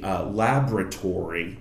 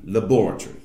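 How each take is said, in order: First: The R sounds are clearly pronounced. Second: The R sounds are dropped in a British accent. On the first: "we're hitting the R's" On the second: "but British, it would be laboratory"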